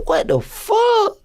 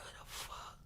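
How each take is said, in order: First: High-pitched, drawn-out disbelief; shocked exclamation. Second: Breathless whisper of fear; whispered disbelief. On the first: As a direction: squeal it slowly in disbelief. Retold shock at the raid. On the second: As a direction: whisper it to yourself, scared. Retold gut feeling of fear. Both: Retold or imitated.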